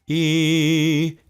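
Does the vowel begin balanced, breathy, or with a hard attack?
balanced. The vowel starts cleanly without extra air or catch. The speaker calls it right. "That was a demonstration of a balanced onset of sound"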